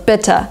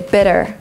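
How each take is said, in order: First: It has a British accent with a clear T. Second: It has an American accent with a flapped T. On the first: "in Great Britain they would say" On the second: "In American English they would say"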